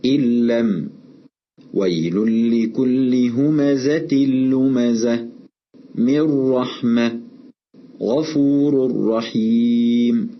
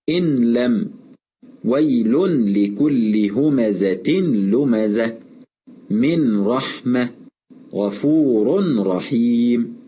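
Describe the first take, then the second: First: Slow recitation, ن fully swallowed into ل or ر in "إن لم ويل لكل همزة لمزة من رحمة غفور رحيم"; merging without ghunna. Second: Slow faulty demo with a distinct n before ل and ر in "إن لم ويل لكل همزة لمزة من رحمة غفور رحيم"; wrongly pronounced clear noon. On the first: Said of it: "أما الإدغام بغير غنة فنطقه كالتالي". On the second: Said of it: "أن نظهر النون الساكنة أو التنوين". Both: Shown as a demonstration.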